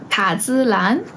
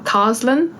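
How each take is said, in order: First: The name is said with a Chinese pronunciation. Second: The name is said with an English pronunciation.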